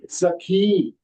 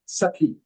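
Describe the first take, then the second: First: The last vowel of Sakhi is long. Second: The last vowel of Sakhi is short. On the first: "Dirgha hai" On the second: "It will become Sakhi. Short"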